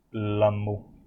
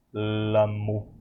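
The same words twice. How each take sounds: First: "Lamo" repetido com clareza; Lamo pronunciado. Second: "Lamo" dito devagar, sílaba por sílaba; Lamo pronunciado. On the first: (professor repete "Lamo" com clareza) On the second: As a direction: pronuncie "Lamo" com clareza. (professor demonstra "Lamo" com clareza) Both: Shown as a demonstration. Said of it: "a gente pode pronunciar esse Lamo".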